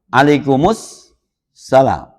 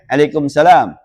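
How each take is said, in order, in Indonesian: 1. Bunyi 'u' tambahan menyambungkan 'alaikum' menjadi 's' yang dobel. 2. 'Alaikum' langsung tersambung ke 'salam' tanpa vokal. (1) "alif lam samsiah" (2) "kita pakainya alaikum salam"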